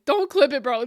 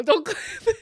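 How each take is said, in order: First: Louder, pleading; loud plea. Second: Higher, louder, laughing through tears; laughing plea. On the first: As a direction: beg them loudly. Begging chat not to clip. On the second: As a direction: plead while laughing. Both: Real, not acted.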